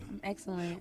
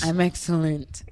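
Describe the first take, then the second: First: It is said softly, without projecting. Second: It is said loudly, projected from the diaphragm. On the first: The speaker calls it wrong. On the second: The speaker calls it right.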